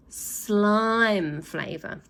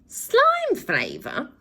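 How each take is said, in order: First: Very slow drawn-out offer; teasing slime flavour. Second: High, very slow appalled question; bawled. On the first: Boy teases villains with slime flavour, very slow. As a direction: draw it out teasingly. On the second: Villain appalled by the offer, high and slow. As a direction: bawl it in disgust. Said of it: "bawled Glenn". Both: Acted.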